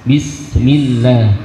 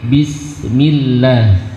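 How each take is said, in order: The two takes are said the same way.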